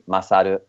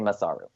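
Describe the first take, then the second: First: The name is said with a Japanese accent. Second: The name is said with an English accent. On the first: "the correct pronunciation with a Japanese accent would be" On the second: "but you could say"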